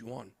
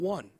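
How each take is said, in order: First: It does not sound like the word 'one'. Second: It sounds like the English word 'one'. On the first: The speaker calls it right. "it's yuan" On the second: The speaker calls it wrong. "not one"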